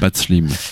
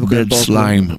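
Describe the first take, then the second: First: The vowel in the second word sounds like 'ee'. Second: The vowel in the second word sounds like 'eye'. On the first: The speaker calls it wrong. "je prononce en français" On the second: The speaker calls it right. "Ça prononce I"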